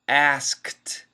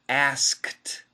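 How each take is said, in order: First: The K sound is fully pronounced. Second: The K sound is fully pronounced.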